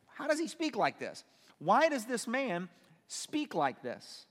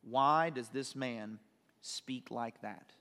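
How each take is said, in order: First: High-pitched disbelief, slowing into emphasis; incredulous questioning. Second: Slow, low, measured pondering; questioning inwardly. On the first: Scribes objecting to Jesus' words, incredulous and emphatic. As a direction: question it in mock astonishment, drawing out the last words. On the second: Scribes questioning Jesus in their hearts, slow and low. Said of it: "questioning in their hearts". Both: Acted.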